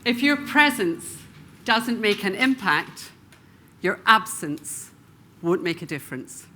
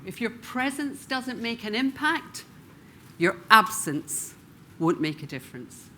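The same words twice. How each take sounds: First: A speaker's emphatic repeated line; stress on key words. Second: Second emphatic pass for the audience; repeated with emphasis. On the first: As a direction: lean on your and doesn't, pausing between phrases. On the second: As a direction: say it again, leaning on your with pauses. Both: Shown as a demonstration. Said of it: "I'll say that once more".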